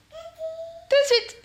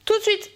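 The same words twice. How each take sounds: First: Very high, slow, drawn-out sing-song "Tout de suite"; a silly high chant of "Tout de suite"; high slow singsong. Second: Said in the usual way. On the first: Pretend. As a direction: stretch "Tout de suite" way up high like a playful tune. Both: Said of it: "on commence cette petite vidéo tout de suite".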